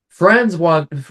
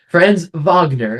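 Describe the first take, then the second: First: The name is pronounced with English sounds. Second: The name is pronounced with German sounds. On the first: The speaker calls it wrong. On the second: The speaker calls it right.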